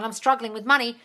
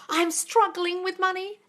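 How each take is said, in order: First: Said in the usual way. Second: Slow, high mimicry of a complaint; mocking parroting. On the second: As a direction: parrot it back with MONEY drawn out. Parrots the viewer's words back.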